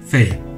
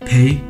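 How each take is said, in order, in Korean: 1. f 소리로 시작합니다. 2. p 소리로 시작합니다. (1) "pay 또는 fail로 발음 구분이 필요합니다" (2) "pay 또는 fail로 발음 구분이 필요합니다"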